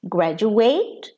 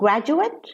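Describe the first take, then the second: First: The stress falls on the final syllable. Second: The stress falls before the final syllable. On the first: It is used as a verb. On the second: It is used as a noun or adjective.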